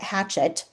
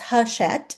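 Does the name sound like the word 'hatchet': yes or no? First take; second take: yes; no. First: It sounds like the English word hatchet. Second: It does not sound like the word hatchet. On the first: The speaker calls it wrong. "I've always called it Hatchet. Yeah, that's not right" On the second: The speaker calls it right. "It's Hachette"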